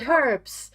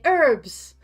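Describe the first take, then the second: First: The word starts with an H sound. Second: The word starts without an H sound.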